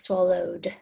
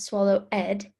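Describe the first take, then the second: First: The ending is said as a plain d sound. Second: The ending is said as an extra syllable. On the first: The speaker calls it right. "that ed makes the d sound at the end of the word" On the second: The speaker calls it wrong. "it's not swallow ed"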